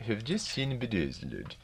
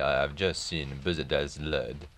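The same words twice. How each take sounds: First: Higher Swedish lilt, "just" falling; sing-song Swedish accent, falling end; Ingmar Bergman Swedish accent. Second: Put-on light French accent, "just" lifted; faint French lilt, rising at the end; Maurice Chevalier French accent. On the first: Retold or imitated. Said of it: "This is Ingmar Bergman speaking". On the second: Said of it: "unable to sustain the French accent".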